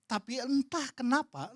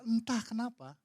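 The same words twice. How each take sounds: First: "entah kenapa" drawn out slowly and higher; slow down on "entah kenapa" as if wondering; slow, weighty. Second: Said in the usual way. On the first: Real, not acted. ("entah kenapa" diucapkan pelan dan agak tinggi)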